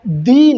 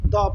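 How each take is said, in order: First: दी with a long stressed ee; THE as "dee". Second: द said low and soft, as "duh"; short neutral vowel on द, dropped down. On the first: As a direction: say दी to rhyme with see. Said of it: "दी न पढ़कर". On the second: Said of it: "क्या पढ़ेंगे". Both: Shown as a demonstration.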